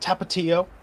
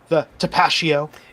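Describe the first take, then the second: First: The word is said in its standard pronunciation. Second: The word is said with an altered pronunciation. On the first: The speaker calls it right. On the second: The speaker calls it wrong.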